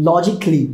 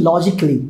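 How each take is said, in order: Both takes have the same delivery.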